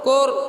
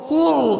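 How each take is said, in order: First: The vowel is said with lips less rounded. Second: The vowel is said with lips fully rounded. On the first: The speaker calls it wrong. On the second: The speaker calls it right.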